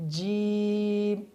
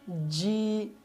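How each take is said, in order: First: The lips move and round during the sound. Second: The sound is pushed out sharply, like ch. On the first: "होंठों को हिला देते हैं" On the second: "इसकी आवाज़ को तेज़ी से निकालते हैं"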